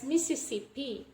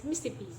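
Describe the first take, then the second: First: Mississippi in full, "Mi-si-si-pi"; as written. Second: Mississippi shortened to "Mis-sippi"; deleted syllable. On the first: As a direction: keep all four syllables of Mississippi. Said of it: "written as". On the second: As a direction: drop the second syllable of Mississippi. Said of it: "will pronounce it easily as". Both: Shown as a demonstration.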